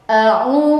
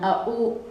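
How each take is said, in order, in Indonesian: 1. U diucapkan dengan bibir sangat membulat. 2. U diucapkan lemah, tanpa bibir membulat. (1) "Bibir itu manyun" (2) "jangan au"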